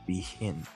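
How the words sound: It is pronounced with French sounds. This is how the spelling would be read in French.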